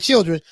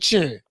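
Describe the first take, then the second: First: The word is said with standard pronunciation. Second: The word is said the Southern way, like chillins. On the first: "instead of saying children" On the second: "down here they say"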